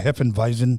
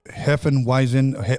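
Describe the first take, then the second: First: The word is said with a German accent. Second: The word is said with an English accent.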